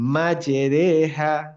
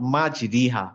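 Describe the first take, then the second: First: The middle vowel sounds like 'e'. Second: The middle vowel sounds like 'i'. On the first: The speaker calls it right. "এ উচ্চারণ করবো" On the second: The speaker calls it wrong. "Not মাজরিহা"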